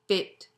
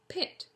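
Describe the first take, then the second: First: The p is said without a puff of air. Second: The p is said with a puff of air.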